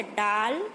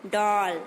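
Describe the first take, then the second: First: डाल with a plain open aa. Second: डॉल with a rounded English aw sound; pron demo. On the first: Teacher to students, plain open aa in डाल. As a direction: say डाल with a long open aa vowel. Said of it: "डाल मतलब पेड़ की टहनी". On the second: Teacher contrasting for students, rounded aw in डॉल. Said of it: "डॉल means गुड़िया". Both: Shown as a demonstration.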